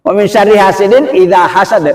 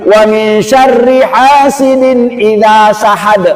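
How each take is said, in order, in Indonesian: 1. Kata terakhir dimulai dengan bunyi h. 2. Kata terakhir dimulai dengan bunyi s. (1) "Yang benar?" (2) "Wong ana sing maca kayak gini"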